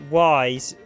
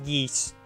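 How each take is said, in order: First: The name sounds like the word 'wise'. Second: The name sounds like the word 'yeast'. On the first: "I always pronounce it wise" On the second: "it's actually supposed to be pronounced yeast"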